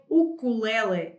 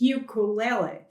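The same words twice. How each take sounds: First: It begins with a dry 'oo' sound. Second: It begins with an English 'yoo' sound.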